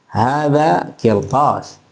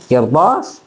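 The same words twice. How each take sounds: First: "Hadha kirtas" very slow, falling at the end; slow informative tune on "Hadha kirtas"; statement intonation. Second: "kirtas" rising at the end; question intonation. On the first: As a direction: state "Hadha kirtas" drawn out, closing on a fall. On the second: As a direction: ask "kirtas" as a one-word question. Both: Shown as a demonstration. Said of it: "Itu intonasi".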